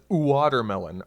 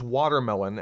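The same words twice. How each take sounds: First: It begins with a slow, drawn-out oo vowel. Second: It begins with an ordinary quick W sound. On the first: "W and Y are just fast versions of U and I" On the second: "If someone pronounces watermelon"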